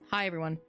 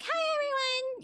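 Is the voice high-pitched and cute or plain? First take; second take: plain; high-pitched. First: It is said in a plain, normal voice. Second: It is said in a high, cute voice.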